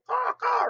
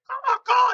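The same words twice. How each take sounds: First: High loud crow cawing; crow caw imitation. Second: Loud high cawing like a crow; crow caw imitation. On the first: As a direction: squawk like a flock of crows. Crows raising a ruckus. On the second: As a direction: caw sharply like an alarmed crow. Crow calls an alert.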